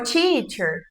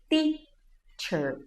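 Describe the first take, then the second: First: The first t is hissed, sounding close to ch. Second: The first t is a clean, plain t. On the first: The speaker calls it wrong. "Atire a primeira pedra, quem nunca falou assim" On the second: The speaker calls it right. "Para pronunciar corretamente a letra T"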